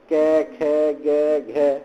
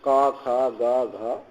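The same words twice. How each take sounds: First: कै, खे, गे, घे said with an e-like vowel, the impure western UP way; कै खे गे घे with a flat e sound instead of a; wrong local pronunciation. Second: का, खा, गा, घा with a clear open aa vowel; का खा गा घा said cleanly with a long a; correct pronunciation. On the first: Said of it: "ये अशुद्ध है". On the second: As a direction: model the pure का खा गा घा, the aa sound as it should be. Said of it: "और बोलना चाहिए". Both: Shown as a demonstration.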